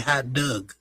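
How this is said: Dog is said with a vowel like dug. "they say hot dug"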